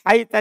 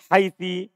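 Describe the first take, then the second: First: The word ends with an a vowel. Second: The word ends with an i vowel. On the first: "dibaca fathah" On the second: "dengan dibaca kasroh"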